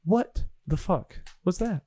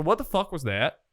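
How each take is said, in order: First: Erky Timbers. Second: Failed southern accent. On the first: Acted. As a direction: spell it out word by word, deliberately. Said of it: "Erky says". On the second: Shown as a demonstration. Game master retrying a character's line, failed southern accent. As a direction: attempt a southern accent and miss. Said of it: "I can't do that line in a southern accent".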